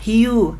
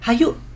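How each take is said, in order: First: The word is said as one short syllable. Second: The word is said as two syllables. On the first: The speaker calls it right. "membaca kata hiu" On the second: The speaker calls it wrong. "kadang-kadang dibaca hayu, itu salah"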